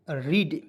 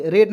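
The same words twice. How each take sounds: First: रीड said with a long ee, like English read; teacher stresses रीड with a long ee; correct reading. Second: रेड said with a short e, like red; teacher voices the wrong रेड with a short e, then rejects it; wrong reading. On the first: Teacher showing students the right reading, रीड with a long ee. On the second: Teacher warning students off the short e, रेड said as red. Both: Shown as a demonstration. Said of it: "रेड नहीं पढ़ेंगे".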